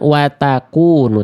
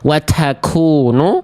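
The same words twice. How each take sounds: First: The t is released with no puff of breath. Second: The t is released with a heavy puff of breath. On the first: "ataupun hilang" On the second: "tidak terlampau berlebihan seperti ini"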